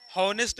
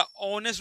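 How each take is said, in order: First: "हॉनेस्ट" with the initial H pronounced; sounded H. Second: "ऑनेस्ट" starting straight on the vowel; silent H. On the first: Teacher showing pupils the mistaken "हॉनेस्ट", h sounded. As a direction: say "हॉनेस्ट" with an audible h at the start. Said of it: "हॉनेस्ट नहीं होता". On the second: Teacher correcting pupils to "ऑनेस्ट", h left silent. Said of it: "ऑनेस्ट होता है". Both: Shown as a demonstration.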